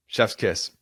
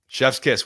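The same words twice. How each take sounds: First: Said in the usual way. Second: "chef's kiss" punched higher and louder; emphatic chef's kiss. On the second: Acted. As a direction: hit "chef's kiss" hard and bright.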